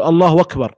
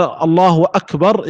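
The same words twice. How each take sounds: First: أكبر said as wakbar, with no glottal stop after الله; hamza turned waw. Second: Said in the usual way. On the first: Shown as a demonstration. Teacher showing the common mistake, hamza said as waw. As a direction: glide from الله straight into a w on أكبر. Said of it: "قلبها واو". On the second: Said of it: "فهنا قال".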